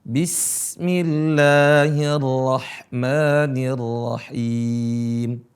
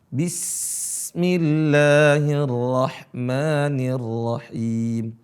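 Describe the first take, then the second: The two takes are said the same way.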